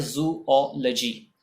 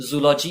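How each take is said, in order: First: "जूलॉजी" as zoo-O-luh-jee; जूलॉजी split into zoo-O-luh-jee; correct pronunciation. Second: "जूलॉजी" run together as zoo-LAW-jee; incorrect pronunciation. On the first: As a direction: give "जूलॉजी" a separate O and short luh. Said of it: "correct pronunciation होता है". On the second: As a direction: say "जूलॉजी" with a full "law" in the middle. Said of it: "जूलॉजी incorrect pronunciation है". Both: Shown as a demonstration.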